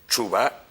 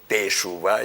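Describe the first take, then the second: First: No vowel follows the first T. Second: A full E vowel follows the first T. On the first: This is how everyday Israeli speech says it. "Todos los israelíes dicen Tshuva como si fuera una" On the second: "En la tradición sefardí se dice Teshuvá y el Sheva inicial suena como E plenamente"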